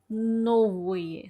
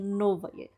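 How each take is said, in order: First: The second vowel is a full 'o' sound. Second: The second vowel is reduced to an 'a' sound. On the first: The speaker calls it wrong. "aqui tem o novoye" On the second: The speaker calls it right. "na verdade, novaye"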